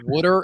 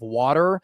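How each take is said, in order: First: The vowels sound like a Philadelphia accent. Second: The vowels sound like a General American accent. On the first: The speaker calls it wrong. "I used to have a Philly twang" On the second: The speaker calls it right. "instead of"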